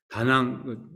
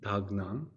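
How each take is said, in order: First: The first syllable runs straight into the second. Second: The first syllable ends with a clear k sound. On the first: "같이 발음할 때는 그 닭 닭 이렇게 하지 않고 다낭이라고 하는데" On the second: "티벳 말로 하면 닭낭이라고요"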